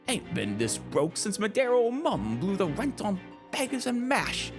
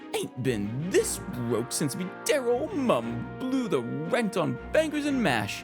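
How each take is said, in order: First: It is read in a put-on British accent. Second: It is read in the speaker's usual accent.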